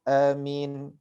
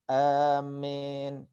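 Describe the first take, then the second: First: The first a is short. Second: The long first a leans toward an e sound. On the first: This is the second well-known reading. "yang kedua adalah dibaca dengan dengan pendek" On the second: This is a less common reported reading. "dengan membaca amin gitu ya, dengan imalah ya"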